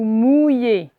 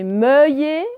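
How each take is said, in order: First: The first syllable has the 'ou' vowel. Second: The first syllable has the 'eu' vowel. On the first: The speaker calls it right. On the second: The speaker calls it wrong.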